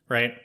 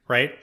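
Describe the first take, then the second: Both takes have the same delivery.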